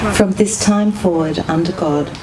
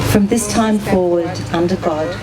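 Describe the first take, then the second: No difference in how they are said.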